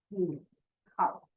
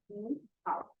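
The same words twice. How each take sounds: First: 你 and 好 apart, each in third tone; separate third tones. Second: 你好 joined, 你 rising in second tone; tone change. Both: Shown as a demonstration. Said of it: "change the first word into second tone".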